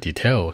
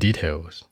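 First: The stress is on the second syllable. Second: The stress is on the first syllable. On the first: The speaker calls it wrong. "很多人会说details 是吧？" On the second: The speaker calls it right. "重音往前靠"

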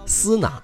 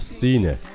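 First: It is said with Mandarin pinyin sounds. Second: It is said with English sounds. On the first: The speaker calls it wrong. "千万不要按拼音的方式来读，读成了斯纳" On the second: The speaker calls it right. "而是Sina"

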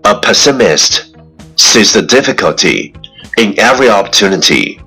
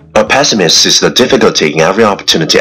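First: The sentence is spoken at a moderate pace. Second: The sentence is spoken very fast in one breath.

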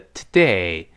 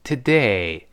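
First: The first vowel is weak and reduced. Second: The first vowel is weak and reduced.

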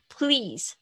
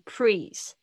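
First: The l sound is clear after the p. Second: The l sound is blurred or missing. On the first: The speaker calls it right. "pl pl pl 要一起念" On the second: The speaker calls it wrong. "不要念成please"

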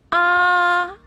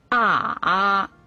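First: The pitch stays high and level. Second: The pitch dips low then comes up. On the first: "一声平" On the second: "三声拐弯"

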